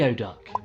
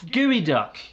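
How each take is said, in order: First: It is pronounced gee-oh-duck, like its letters. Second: It is pronounced gooey-duck, unlike its letters. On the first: The speaker calls it wrong. "because that's how it's bloody spelt" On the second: The speaker calls it right. "No, it's called Geoduck"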